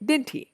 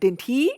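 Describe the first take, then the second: First: The pitch falls at the end. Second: The pitch rises at the end. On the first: The speaker calls it right. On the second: The speaker calls it wrong.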